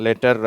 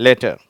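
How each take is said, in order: First: லெட்டர் with a clear final r, the Indian way; Indian pronunciation. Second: லெட்டர் said as "leta", no final r; British pronunciation. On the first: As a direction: roll the r at the end of லெட்டர். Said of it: "நம்ம இந்தியர்கள் வந்து ஆரை உச்சரிக்கிறோம்". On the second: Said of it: "வாட்டர் அப்படின்னு சொல்லிட்டு". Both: Shown as a demonstration.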